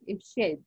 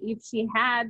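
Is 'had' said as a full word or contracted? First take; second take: contracted; full. First: Had is shortened to a d sound. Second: The word had is said in full. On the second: "if I say"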